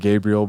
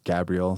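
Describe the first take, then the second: First: The name is said with plain English sounds. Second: The name is said with a foreign accent. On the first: This is the speaker's usual way of saying it. "I say Gabriel" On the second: This is how the person's name really sounds. "however you say it with the accent"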